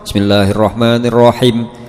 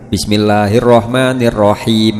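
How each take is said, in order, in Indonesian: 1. Vokal panjang dipendekkan. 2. Vokal panjang diucapkan dengan jelas dan memanjang. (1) "Niku yae ical sedaya niku" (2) "Him wonten nyerete ngoten"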